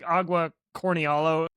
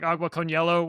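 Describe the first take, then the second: First: The middle sounds like 'cornialo'. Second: The middle sounds like 'con hielo'. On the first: This imitates a non-native speaker's attempt. The speaker calls it wrong. "he says stuff like" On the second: This is how the phrase should go. The speaker calls it right. "instead of like"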